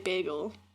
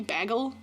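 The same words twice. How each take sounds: First: The first syllable sounds like 'bay'. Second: The first syllable sounds like 'bag'. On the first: "Like bay, like a fish on the bay. Gull" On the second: "like with two G's, like B A G G L E, bagel, like a bag"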